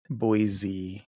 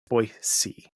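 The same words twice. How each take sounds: First: The middle consonant is a z sound. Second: The middle consonant is an s sound. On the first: The speaker calls it wrong. "it's not Boise. There's no Z in there" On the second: The speaker calls it right. "It's Boise"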